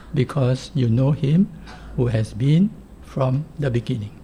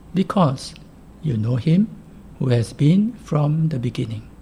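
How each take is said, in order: No difference in how they are said.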